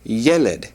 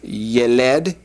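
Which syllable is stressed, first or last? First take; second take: first; last. First: The stress is on the first syllable. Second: The stress is on the last syllable. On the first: The speaker calls it right. "the accent is on the first" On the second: The speaker calls it wrong. "instead of yeled"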